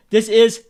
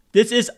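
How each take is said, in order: Both takes have the same delivery.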